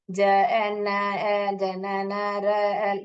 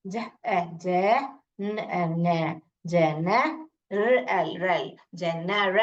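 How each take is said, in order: First: Chain the sounds of जनरल in one unbroken monotone string; run-together wrong reading. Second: ज, ए joined to ज, pause, then न, then रल, low; broken into pairs. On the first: Teacher shows what fails, sounds of जनरल run together. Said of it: "आप ऐसे साथ में ही पढ़ोगे". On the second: Teacher shows the proper way, paired sounds building slow जनरल. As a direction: blend जनरल two sounds at a time with clear gaps. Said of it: "ऐसे पढ़ना चाहिए". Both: Shown as a demonstration.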